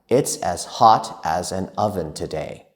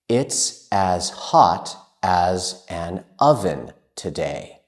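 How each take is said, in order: First: It is spoken at a faster pace. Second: It is spoken at a normal, careful pace.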